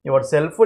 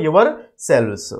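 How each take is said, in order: First: యువర్ సెల్ఫ్ said clearly, ending on a crisp f; teacher modelling యువర్ సెల్ఫ్ with a rising end; singular yourself. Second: యువర్ సెల్వ్స్ said carefully, ending on ves; teacher contrasting యువర్ సెల్వ్స్ with the singular; plural yourselves. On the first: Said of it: "సింగులర్కి అయితేనేమో యువర్ సెల్ఫ్". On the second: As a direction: model యువర్ సెల్వ్స్ for the class with a falling close. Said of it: "ప్లూరల్కి అయితేనేమో యువర్ సెల్వ్స్". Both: Shown as a demonstration.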